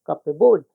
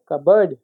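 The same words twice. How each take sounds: First: Two full words, cup and board, in कपबोर्ड; spelling pronunciation. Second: Reduced second syllable in कबर्ड; correct pronunciation. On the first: Teacher mimicking the written form, कपबोर्ड with full "board". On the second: Teacher giving the real pronunciation, कबर्ड with silent P. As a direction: say कबर्ड as "cub-erd", silent P. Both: Shown as a demonstration. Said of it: "लेकिन होता क्या है?".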